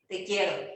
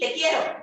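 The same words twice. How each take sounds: First: It is said warmly, with empathy. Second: It is said in an angry, irritated way. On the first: "decirnos te quiero de manera que sea con empatía" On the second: "Ahora un te quiero enojado"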